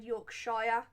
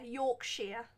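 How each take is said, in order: First: "Yorkshire" with the last part rhyming with fire; Yorkshire with "shire". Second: "Yorkshire" with the last part rhyming with ear; Yorkshire with "sheer". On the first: Discussing how "Yorkshire" is said, ending rhymed with fire. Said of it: "I heard a different shire". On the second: Showing viewers own way, "Yorkshire" ending in "sheer". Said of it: "that's how I say it". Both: Shown as a demonstration.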